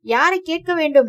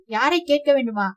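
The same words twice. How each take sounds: First: யாரை hit higher and louder, the whole question raised; sharp raised retort. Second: Said in the usual way. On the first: A narrator's reading. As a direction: throw back யாரை கேட்க வேண்டும் in a raised, challenging voice. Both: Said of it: "மறுபடியும் குரலை உயர்த்தி".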